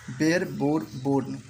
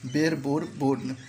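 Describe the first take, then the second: First: Slow pronunciation demo. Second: Said in the usual way. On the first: Shown as a demonstration. Teacher to students learning verb forms, slow and careful. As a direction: slowly spell out bear बोर born word by word. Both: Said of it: "मैं इसको pronunciation करते जाऊंगा".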